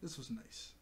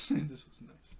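First: Said in the usual way. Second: Slower, laughing this was nice. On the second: Shown as a demonstration. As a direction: let a chuckle carry it.

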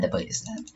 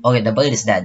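First: Whispered to self, deflated; whispered aside. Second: Said in the usual way. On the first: Real, not acted. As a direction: breathe it out under your breath.

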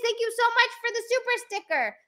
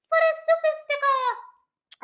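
First: Said in the usual way. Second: Much higher, odd squeaky put-on voice; silly high voice. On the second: Thanking a viewer for a sticker, silly high voice. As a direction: repeat it in a goofy high voice. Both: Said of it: "I'm sorry for saying it like that".

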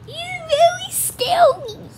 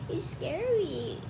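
First: Slow, very high, louder voice; squealed mock fear. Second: Soft, slow little voice; quiet mock fear. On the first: Kid reacts to Dad's Gollum, high squealed mock fright. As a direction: squeak it out slowly, overdoing the fright. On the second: Kid reacts to Dad's Gollum, soft mock fright. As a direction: say it small and slowly.

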